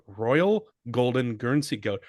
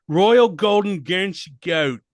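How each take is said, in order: First: Put-on lightly done English accent. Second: Higher, louder hammed-up English accent. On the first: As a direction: say it like a posh Brit. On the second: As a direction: play a boozy Englishman. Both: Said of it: "my fuckhead English accent".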